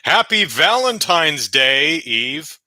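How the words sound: There is a pause before the word Eve. Someone named Eve is being greeted. The speaker calls it wrong. "Which sounded like I said that with a comma"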